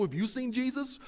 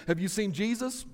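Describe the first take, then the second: First: "Have YOU seen Jesus?", "you" pitched high; question turned back. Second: Lightly acted wife's question, rising at the end; Mary's question. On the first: Acted. Joseph asking Mary back, high questioning stress on "you". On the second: Mary asking Joseph about their son, lightly acted question. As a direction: ask it plainly, a touch of acting. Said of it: "Mary will look at Joseph and will say".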